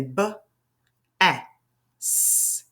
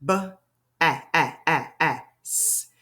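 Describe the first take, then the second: First: "B, A, S" as isolated sounds, short a, hissed s; word tapped out. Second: "B", short "A" in four separate beats, hissed "S"; vowel tapped repeatedly. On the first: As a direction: sound out "B", then "A", then "S" with gaps. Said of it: "use our fingers and do like this". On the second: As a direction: bounce the short "A" between "B" and "S". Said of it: "it does have one short vowel sound". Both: Shown as a demonstration.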